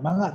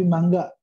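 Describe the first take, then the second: First: "manga" with ng alone, no hard g; common mispronunciation. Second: "mangga" with ng plus a hard g; corrected pronunciation. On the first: Teacher shows the common mistake, "manga" without a hard g. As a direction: say "manga" as ma-nga. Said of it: "ini orang sering ngomongnya manga". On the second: Teacher corrects learners, "mangga" with a hard g after ng. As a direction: say "mangga" as mang-ga. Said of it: "tapi mangga sebenarnya ya". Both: Shown as a demonstration.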